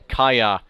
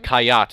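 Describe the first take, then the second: First: The name ends without a final T sound. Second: The name ends with a clear final T sound. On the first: The speaker calls it wrong. "Didn't pronounce the T there" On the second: The speaker calls it right. "excuse me"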